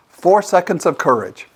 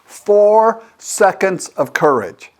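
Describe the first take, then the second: First: Said in the usual way. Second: Each word drawn out slowly for emphasis; slow and weighty. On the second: Shown as a demonstration. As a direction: spell out the phrase slowly, like a motto.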